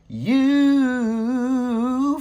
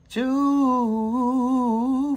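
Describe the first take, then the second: First: The word begins with a 'y' sound. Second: The word begins with a 'ch' sound. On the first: "instead of you" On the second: "you might say chew instead of you"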